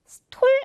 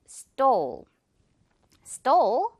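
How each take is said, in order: First: Stole with an airy t, Korean 스톨 style; mistaken aspirated t. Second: Stole with tight ㄸ-like t and long o; tense-t stole. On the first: Teacher showing what to avoid, airy-t stole. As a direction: say stole with a puffed t and full l. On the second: Teacher correcting learners, tense-t stole. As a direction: stretch stole, no puff on the t. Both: Shown as a demonstration. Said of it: "stole 아니고 stole".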